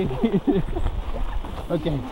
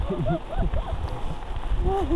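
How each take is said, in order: No difference in how they are said.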